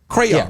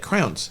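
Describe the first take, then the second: First: The word is said with two syllables. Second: The word is squeezed into one syllable. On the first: The speaker calls it right. "the word is crayons, like Crayola" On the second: The speaker calls it wrong. "She made it a one syllable word"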